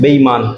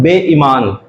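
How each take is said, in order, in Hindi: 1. ई स्वर छोटा बोला जाता है। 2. ई स्वर लंबा बोला जाता है। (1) "ये ई छोटा बोलते हैं" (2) "परंतु ये क्या है?"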